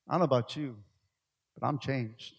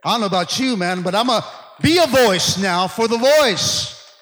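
First: Said in the usual way. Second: "I don't know about you" shouted high and loud; loud preaching. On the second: Acted. Pastor declaring his change to the church, loud and high. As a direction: belt it out as a rallying cry.

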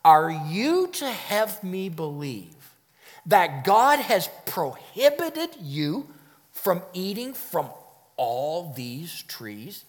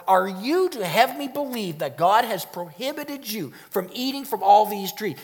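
First: Slow, incredulous questioning; interrogative surprise. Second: Incredulous questioning at normal pace; interrogative surprise. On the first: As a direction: draw it out in mock disbelief. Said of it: "Let me try to illustrate this for you". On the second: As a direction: ask it in disbelief. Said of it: "Do you see the interrogation". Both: Shown as a demonstration.

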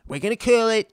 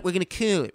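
First: Higher, louder, punchy boast; Trump boast. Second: Trump repeat. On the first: Trump boasting to a climate summit, loud and high. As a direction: sell it like a big promise. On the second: Trump repeating his promise at the summit, calmer. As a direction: repeat the promise more calmly. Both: Retold or imitated. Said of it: "he goes".

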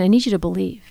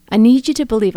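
First: Said in the usual way. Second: The repeat pressed louder, leaning on "you"; emphatic repeat. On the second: Retold or imitated. God's voice pressing on her, insisting firmly. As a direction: insist the second time, hitting "you".

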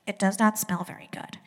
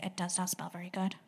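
First: Said in the usual way. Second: Nose held shut, muffled; pinching nose. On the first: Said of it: "Can you put your hand over your nose and say". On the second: Shown as a demonstration. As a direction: say it holding your nose. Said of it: "put your hand over your nose and say".

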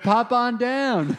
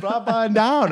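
First: Slow, louder, higher mock of "pop on down"; mocking chiropractor. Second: High mock of "Pop on down", falling on down; mocking chiropractor. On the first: Friend mocking the chiropractor's line, slow and high. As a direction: drawl out "Pop on down" in a teasing voice. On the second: Teasing his friend about the chiropractor, high mock voice. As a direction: echo "Pop on down" in a silly high voice.

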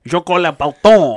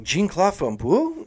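First: "Jean-Claude Van Boule" said the French way, falling; "Jean-Claude Van Boule" with a French accent; French pronunciation. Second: "Jean-Claude Van Boule" said with English vowels, rising; "Jean-Claude Van Boule" anglicized, slow, questioning; English pronunciation. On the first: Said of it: "And you're like". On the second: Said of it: "they were like". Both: Retold or imitated.

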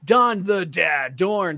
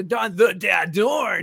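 First: Announcer voice. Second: Hyped-up name callout; announcer voice. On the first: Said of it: "doing that voice". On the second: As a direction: belt the name like a ring announcer. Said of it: "throw it up". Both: Shown as a demonstration.

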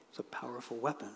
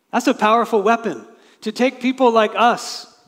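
First: Softly repeated. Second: Proclaimed. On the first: Preacher echoes the line softly. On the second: Preacher exclaiming over Christ's sacrifice. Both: Real, not acted.

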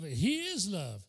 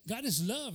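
First: Slowly, leaning on "is" in "He is love"; slow stress on "is", not the quote's quick way; slow emphasis. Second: Said in the usual way. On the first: Shown as a demonstration. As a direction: draw out "He is love", weight on "is". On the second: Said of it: "There's a religious saying".

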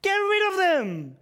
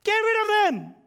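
First: Slow, drawn-out loud dismissal; cold-hearted disciples. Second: High, loud dismissive shout; cold-hearted disciples. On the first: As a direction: spell out the brush-off slowly and coldly. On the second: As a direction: brush them off like a heartless disciple. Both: Retold or imitated. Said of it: "These are serial cold hearters".

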